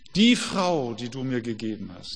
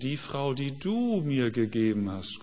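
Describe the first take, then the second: First: The stress falls on the word Frau. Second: The stress falls on the word du. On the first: The woman is to blame. "die Frau, die war's" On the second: God is to blame. "Man kann es anders betonen. ... Wer ist schuld? Du, Gott"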